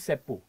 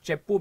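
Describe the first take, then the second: First: It begins with an 's' sound, village Telugu. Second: It begins with a 'ch' sound, standard Telugu.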